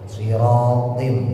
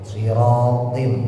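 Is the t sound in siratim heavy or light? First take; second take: heavy; heavy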